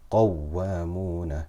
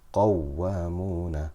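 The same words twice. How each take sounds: No difference in how they are said.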